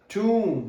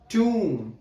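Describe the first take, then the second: First: The vowel is a long 'oo' sound. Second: The same.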